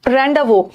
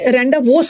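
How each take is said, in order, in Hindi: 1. यह शब्द 's' की आवाज़ के बिना खत्म होता है। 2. यह शब्द 's' की आवाज़ के साथ खत्म होता है। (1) "इसका एस साइलेंट है" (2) "मत पढ़ना"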